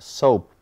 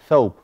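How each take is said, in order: First: The word begins with an s sound. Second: The word begins with a th sound. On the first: The speaker calls it wrong. "not soap" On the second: The speaker calls it right. "but thobe, ... the tongue has to be out"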